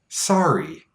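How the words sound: The first vowel is a relaxed, unrounded ah. This is the local pronunciation near the border. "we said sorry, ah, a more relaxed sound. The lips don't round as much"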